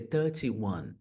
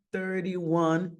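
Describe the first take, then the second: First: THIRTY-ONE with a crisp T; British THIRTY-ONE, T fully pronounced. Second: THIRTY-ONE with a tapped T; American flapped T in THIRTY-ONE. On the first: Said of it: "eles vão pronunciar esse T". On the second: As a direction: say THIRTY as "thur-dee" in THIRTY-ONE. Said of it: "inglês americano". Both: Shown as a demonstration.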